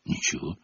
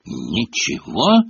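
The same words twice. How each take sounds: First: Very soft, low «Ничего»; hushed, evasive reply; meek answer. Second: «Ничего» drawn out slowly, rising at the end; slow, disbelieving query; incredulous echo. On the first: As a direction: answer small and quiet. Harry's meek answer to Filch. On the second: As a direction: echo it back as a suspicious question. Filch echoes the answer disbelievingly. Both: A narrator's reading.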